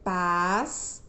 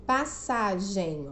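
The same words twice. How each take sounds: First: "Passagem" slowly as pas, sa, gem with long gaps; syllable by syllable. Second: Said in the usual way. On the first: Shown as a demonstration. Teacher asking for the syllable count, "Passagem" split pas, sa, gem. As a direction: separate the three syllables of "Passagem". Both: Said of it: "Tem quantas sílabas?".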